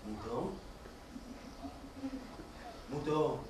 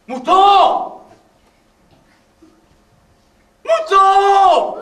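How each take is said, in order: First: Low, soft, uncertain calls; quiet calling. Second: High, loud shout across the field; shouted calling. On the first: The wolf softly calls for the vanished sheep. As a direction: call out hesitantly into the woods. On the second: The wolf yells for the sheep that ran off, loud. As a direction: yell for him at full voice. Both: Acted.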